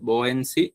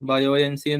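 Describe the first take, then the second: First: The word begins with one syllable, 'boy'. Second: The word begins with two syllables, 'bayo'. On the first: The speaker calls it right. "Actually അത് ബോയന്റ് എന്ന് വായിക്കാം" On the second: The speaker calls it wrong. "Spelling പ്രകാരം ബയോയൻസി എന്നൊക്കെ pronounce ചെയ്യുന്നവരുണ്ട്"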